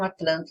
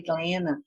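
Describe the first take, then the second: First: It is said with a clear standard T. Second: It is said with a local Georgia T.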